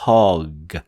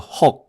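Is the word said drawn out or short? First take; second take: drawn out; short. First: The word is said long and drawn out. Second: The word is said short and clipped. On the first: The speaker calls it right. "옆으로 길게 hug 이런 식으로" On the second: The speaker calls it wrong. "이렇게 짧게 소리를 만들면 안 돼요"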